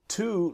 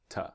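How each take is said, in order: First: The word has a full, strong vowel. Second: The word has a weak, reduced vowel. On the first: "is the strong pronunciation" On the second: "The weak pronunciation is t"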